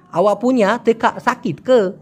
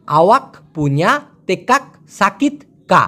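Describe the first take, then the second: First: Slow, আওয়া and teka with finals dropped, ke at the end; smooth it out, swallow the k sounds; Malay pronunciation. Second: Slow, every k in tekak and আওয়াক fully said; careful full pronunciation. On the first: Teacher models how Malaysians actually say it. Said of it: "মালয়েশিয়ানরা বলে". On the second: Teacher gives the textbook Malay sentence first. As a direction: spell out each sound of tekak slowly. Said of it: "একদম স্পষ্ট উচ্চারণটা আমি দিতেছি". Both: Shown as a demonstration.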